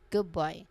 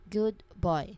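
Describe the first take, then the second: First: The word good ends with a B sound. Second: The word good ends with a clear D sound. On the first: "when people speak this phrase naturally, it very often changes. The phrase becomes good boy" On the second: "The phrase in its full form is good boy. Again"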